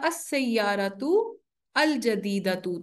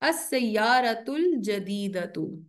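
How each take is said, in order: First: The article is said separately from the noun. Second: The article is joined to the noun before it.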